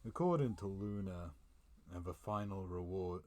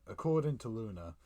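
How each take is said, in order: First: Said in the usual way. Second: Louder restart. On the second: Shown as a demonstration. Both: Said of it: "oh, ac-, according to Luna".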